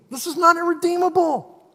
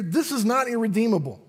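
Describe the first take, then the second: First: "not" pushed higher and harder; rising emphatic "This is not irredeemable"; emphatic repeat. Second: Said in the usual way. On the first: Shown as a demonstration.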